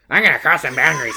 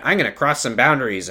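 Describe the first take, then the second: First: A light mock imitation of Ken the therapist; half-hearted Ken send-up; Ken impression. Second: Said in the usual way. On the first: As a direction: lightly put on a cocky therapist voice. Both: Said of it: "this is my Ken impression".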